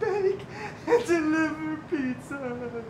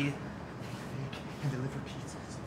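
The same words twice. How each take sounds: First: It is said loudly. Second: It is said quietly.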